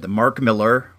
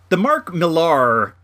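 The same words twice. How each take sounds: First: Millar said like "Miller", stress up front; Miller pronunciation. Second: Millar slowly, stressed on the second syllable; Millar pronunciation. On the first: Unsure of the comic writer's surname, Millar pronounced MILL-er. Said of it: "is it Miller or Millar?". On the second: Settling on the other surname pronunciation, Millar as mill-AR. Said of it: "sometimes I do say Millar". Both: Real, not acted.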